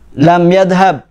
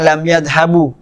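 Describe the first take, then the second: First: The last word ends on a consonant, no vowel. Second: The last word ends with a short u vowel. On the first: The speaker calls it right. "harus disukun" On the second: The speaker calls it wrong. "tidak boleh di dhammah"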